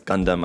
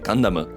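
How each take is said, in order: First: It is said with an English pronunciation. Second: It is said with a Japanese pronunciation. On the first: "Everybody knows here in the English-speaking community" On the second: "if you actually read the katakana pronunciation for it"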